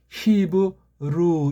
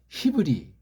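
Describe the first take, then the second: First: The word ends with an 'oo' vowel. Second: The word ends with an 'ee' vowel. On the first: The speaker calls it right. "이거 발음을 할 때 히브루 이렇게 하는 거예요" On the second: The speaker calls it wrong. "우리나라에서는 히브리"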